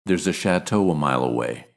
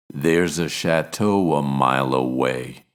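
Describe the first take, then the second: First: Said in the usual way. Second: "chateau a" slowed, linked with a W glide. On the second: Shown as a demonstration. Teacher slowing down to show the W link. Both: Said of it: "acts like a consonant".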